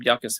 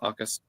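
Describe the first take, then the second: First: The name begins with a Y sound. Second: The name begins with a vowel sound. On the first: The speaker calls it wrong. "Or Akus, I'm sorry" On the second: The speaker calls it right. "It's pronounced Akus"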